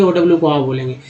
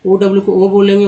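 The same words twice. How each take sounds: First: आ as an open "aa/ow". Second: ओ as a long round "oh". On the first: Teacher showing second sound of OW, आ said open. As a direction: open आ up as in "now". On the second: Teacher showing first sound of OW, ओ said as "oh". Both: Shown as a demonstration. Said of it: "ओडब्ल्यू को क्या क्या बोलते हैं".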